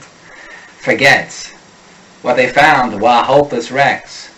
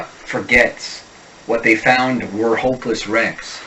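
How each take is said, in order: First: "forgets" and "were" with the R dropped, Boston style. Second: "forgets" and "were" with the R fully sounded; American R endings. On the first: Coach modelling Boston R drops, "were" said "wah". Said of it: "a wicked awesome Boston speaker has no use for the unstressed R". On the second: Coach modelling American R endings, R sounded in "forgets". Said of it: "In a typical American accent, even R endings are articulated". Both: Shown as a demonstration.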